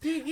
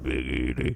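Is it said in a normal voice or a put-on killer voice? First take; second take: normal; killer voice. First: It is said in a plain, normal voice. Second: It is said in a put-on killer voice.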